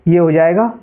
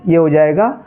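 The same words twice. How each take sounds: No difference in how they are said.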